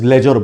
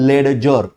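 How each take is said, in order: First: No d sound is heard before the j. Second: A d sound is heard before the j. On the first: The speaker calls it right. "Pronunciation में डी नहीं आएगा" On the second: The speaker calls it wrong. "It is not called लेडजर"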